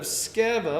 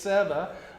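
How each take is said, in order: First: The C is pronounced at the start. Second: The C is silent at the start.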